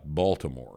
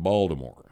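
First: The T sound is pronounced in the word. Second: The T sound is dropped from the word. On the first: This is how outsiders say it. "It's not Baltimore" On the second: This is how locals say it. "people from Maryland don't have the T sound"

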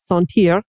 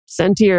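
First: It is said with a French pronunciation. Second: It is said with an American pronunciation.

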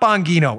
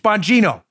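First: The g is pronounced as a hard g. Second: The g is pronounced softly, like a j. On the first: The speaker calls it wrong. "It's not Bongino" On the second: The speaker calls it right. "The Italians pronounce their G's like J's"

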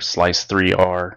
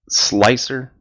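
First: It is said as slice, three, R. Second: It is said as two syllables, slicer. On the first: The speaker calls it wrong. "I'm not going to say" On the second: The speaker calls it right. "that's how it's pronounced, or that's how everybody says it"

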